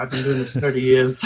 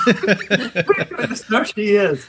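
First: Put-on a half-hearted, laughing stab at an Irish accent; barely-there Irish accent, giving up mid-line; Irish accent attempt. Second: Higher, slow, laughing hammed-up Irish accent; Irish accent impression. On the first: Husband quoting the Irish midwife, faint laughing Irish accent. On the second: Husband retrying the midwife's line, hammed-up Irish accent. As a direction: go for a bigger, sillier Irish accent while laughing. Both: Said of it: "I can't do an Irish accent".

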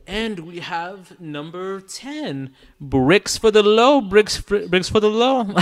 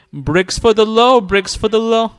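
First: Heavy reverb on the voice; like calling out in a big empty hall; big hall echo. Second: Said in the usual way. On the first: Real, not acted. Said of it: "the reverb". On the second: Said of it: "I'll just do it again".

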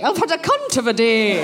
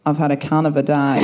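First: Put-on prim Edinburgh schoolmistress accent, lightly done; lightly posh Scottish, laughing; posh Scottish Miss Jean Brodie. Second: Broad Australian accent, lower; Australian accent, amused. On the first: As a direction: savour it like a genteel Scottish teacher. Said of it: "I'm doing kind of my Miss Jean Brodie". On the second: Shown as a demonstration. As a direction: drop back into her native Australian twang. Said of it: "in my original Australian accent".

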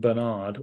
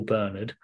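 First: Bernard said as buh-NARD; second-syllable stress. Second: Bernard said as BUR-nud; first-syllable stress. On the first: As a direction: put the stress on the end of Bernard. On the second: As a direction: put the stress on the start of Bernard. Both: Shown as a demonstration. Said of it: "whichever you prefer".

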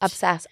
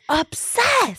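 First: Said in the usual way. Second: Squeaky high-pitched obsessed; high squeal. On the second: Real, not acted. Echoing catchphrase, high squeal.

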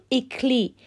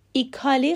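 First: "ایکلی" as two syllables after the I, "ik-lee"; correct ending. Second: "ایکالی" with a full A, "i-ka-lee"; wrong ending. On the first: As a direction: say ایکلی with no vowel between K and L. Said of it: "باید بگیم". (تلفظ درست «ایکلی»، بدون الف) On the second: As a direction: sound out the vowel between K and L in ایکالی. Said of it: "ایکالی غلطه". (تلفظ غلط «ایکالی» با الف) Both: Shown as a demonstration.

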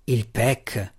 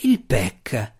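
First: Disgusted. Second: Growled. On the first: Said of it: "con evidente disgusto". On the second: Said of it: "ringhiò Drizzt". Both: A narrator's reading.

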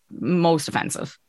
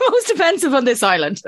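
First: Said in the usual way. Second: High-pitched, through laughter; laughing. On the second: Real, not acted. Telling an American which label offends most, laughing. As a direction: crack up as you repeat it. Laughs while repeating own verdict.

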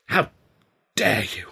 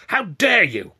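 First: Halting, restrained outrage; mild, stunned indignation; indignant cry. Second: Loud, high outburst of outrage; raised-voice indignation; angry cry. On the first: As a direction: break it up with a pause before 'dare'. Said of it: "Ed cried, going red in the face". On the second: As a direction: burst out indignantly, pitch leaping on 'dare'. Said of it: "going red in the face". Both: A narrator's reading.

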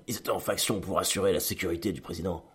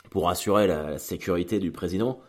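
First: Softer, deliberate line like a cheesy dubbed movie; bad American film dialogue. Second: Said in the usual way. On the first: Shown as a demonstration. Vlogger mocking his own phrasing as bad movie dialogue, softer cheesy dub voice. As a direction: say it like a corny dubbed action film. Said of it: "d'un mauvais film américain". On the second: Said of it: "j'ai l'impression de, de, d'avoir un dialogue de, de, d'un mauvais film américain".

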